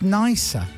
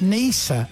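First: The name sounds like the word 'nicer'. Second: The name does not sound like 'nicer'. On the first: The speaker calls it right. "it's Nisa. ... Which is nicer" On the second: The speaker calls it wrong. "It's not Nisa"

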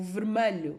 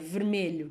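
First: The stressed vowel sounds like 'a'. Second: The stressed vowel sounds like 'e'. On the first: The speaker calls it wrong. "que metem o A em vez do E" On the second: The speaker calls it right. "que é vermelho que se diz"

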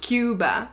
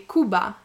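First: It is pronounced the way English speakers say it. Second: It is pronounced the way Spanish speakers say it. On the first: "every English speaking person says" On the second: "if you ask a Spanish speaking person, they would say"

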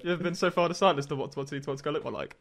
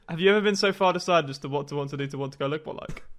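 First: It is said at a normal speed. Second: It is said more slowly.

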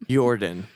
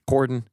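First: The name begins with a Y sound. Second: The name begins with an H sound. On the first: The speaker calls it wrong. "Because the J is a Y" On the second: The speaker calls it right. "it'd be an H"

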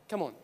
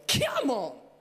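First: It is said calmly and gently. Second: It is said with lots of energy.

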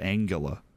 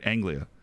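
First: A vowel sound comes between the G and L. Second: No vowel sound comes between the G and L. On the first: The speaker calls it wrong. "You said Angula" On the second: The speaker calls it right. "Because the I is after the L"

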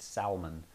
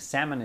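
First: It is pronounced differently from the fish word. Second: It is pronounced like the word for the fish. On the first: This names the person. The speaker calls it right. "they actually pronounce it Salmon" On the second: This names the fish. The speaker calls it wrong. "I think salmon is a fish"

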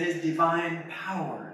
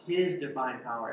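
First: The word 'power' is stressed. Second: The word 'His' is stressed. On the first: "you put an emphasis on each word" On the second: "you put an emphasis on each word"

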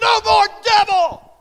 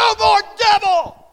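First: It is said loudly and forcefully. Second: It is said loudly and forcefully.

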